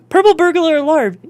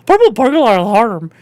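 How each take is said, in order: First: It is said in plain, regular English. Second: It is said in a guttural put-on accent.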